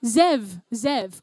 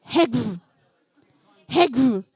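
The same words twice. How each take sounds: First: "Zev" with a z sound at the start; corrected pronunciation. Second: "Hegv" as one word with a hard g; mistaken pronunciation. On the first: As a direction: say "Zev" as one syllable, opening on a buzzing z. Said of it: "you were saying it with an Eastern regional accent". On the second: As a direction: read the letters "Hegv" as a single syllable, g before v. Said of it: "Have I said it correctly? Have I pronounced it?". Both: Real, not acted.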